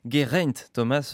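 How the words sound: The name is said with French sounds. This is how people in France say it. The speaker calls it wrong. "on dit Geraint Thomas, nous en France"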